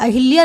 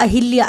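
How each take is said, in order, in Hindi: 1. 'h' ध्वनि के बाद एक 'i' स्वर आता है। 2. 'h' ध्वनि के बाद एक 'i' स्वर आता है।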